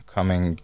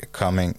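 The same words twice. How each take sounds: The two takes are said the same way.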